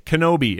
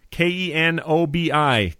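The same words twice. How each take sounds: First: Kenobi said whole with a falling end; said as a word. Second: K E N O B I spelled letter by letter. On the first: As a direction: say Kenobi as one word, firm fall. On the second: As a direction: spell K E N O B I slowly. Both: Shown as a demonstration.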